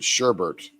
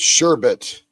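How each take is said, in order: First: The word is pronounced with an added sound. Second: The word is pronounced as it is spelled. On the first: The speaker calls it wrong. "but we pronounce it sherbet" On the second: The speaker calls it right. "So it's sherbet"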